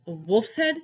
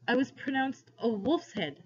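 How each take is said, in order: First: "A wolf's head" echoed with a sharp rise on head; incredulous question. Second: "a wolf's head" as a higher-pitched statement, falling at the end; hesitant confession. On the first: Man astonished at the boy, "A wolf's head" rising. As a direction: question "A wolf's head" in disbelief, ending upward. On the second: Boy confessing to his captor, "a wolf's head" stated with a fall. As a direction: admit "a wolf's head" reluctantly, closing downward. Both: A narrator's reading.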